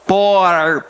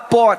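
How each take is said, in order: First: The R sounds like an American English R. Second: The R is said the Rio de Janeiro way. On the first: "fala para um paulista... é o R de americano" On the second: "Aí você fala para o carioca"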